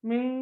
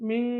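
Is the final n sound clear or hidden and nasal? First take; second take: hidden nasal; hidden nasal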